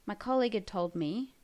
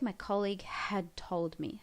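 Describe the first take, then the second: First: The word had is said quickly and lightly. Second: The word had is said in full. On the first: "we kind of really shorten it" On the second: "we'd write the whole had"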